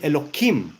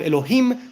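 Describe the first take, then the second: First: The middle consonant is a K sound. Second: The middle consonant is an H sound. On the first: The sacred name is altered to avoid desecrating it. "They do the K instead of a H" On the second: The sacred name is said as it is. "instead of Elohim"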